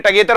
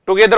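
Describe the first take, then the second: First: "together" with a weak "tuh" first syllable; correct pronunciation. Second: "together" with "too" as first syllable; wrong pronunciation. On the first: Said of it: "together होता है". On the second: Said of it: "together होता ही नहीं है". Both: Shown as a demonstration.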